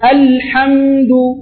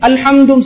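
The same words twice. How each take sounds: First: The l and m sounds are held longer. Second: The word is said quickly in one stroke. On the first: The speaker calls it right. "லாம்லையும் மீம்லையும் கொஞ்சம் டைமிங் கொடுப்போம்" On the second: The speaker calls it wrong. "ஒரே அடிக்கு அல்ஹம்து சொல்லாம"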